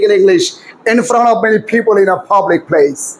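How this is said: It has aspirated stops and smoothly linked words. "এই দশটা সূত্র প্রয়োগ করে এবার আমি বলি"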